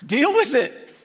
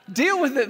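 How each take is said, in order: First: Laughing it out, higher; tossing it off with a laugh; chuckled deal with it. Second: Said in the usual way. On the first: Real, not acted. Preacher repeats catchphrase, laughing.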